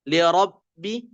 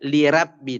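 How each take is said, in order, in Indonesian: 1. Huruf r dibaca tebal. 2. Huruf r dibaca tipis.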